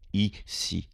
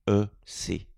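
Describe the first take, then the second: First: The letters are said with an American accent. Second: The letters are said with a French accent.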